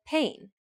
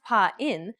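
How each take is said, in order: First: Pain as one syllable, vowels glided together; gliding diphthong. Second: Pa-in as two separate syllables, "pah" then "in"; split vowels. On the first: Teacher shows learners the correct diphthong, pain in one syllable. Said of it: "It's not pronounced pa-in, but pain". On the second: Teacher shows learners the wrong way, pa-in split in two. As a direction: break pa-in apart into two distinct vowels, slowly. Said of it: "It's not pronounced pa-in". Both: Shown as a demonstration.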